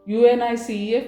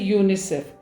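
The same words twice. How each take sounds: First: Each letter is spoken separately. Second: It is spoken as a single word. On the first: The speaker calls it wrong. "but we don't say UNICEF" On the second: The speaker calls it right. "we say UNICEF"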